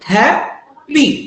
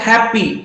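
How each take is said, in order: First: The word is split into two separated syllables. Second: The word is said whole without a break.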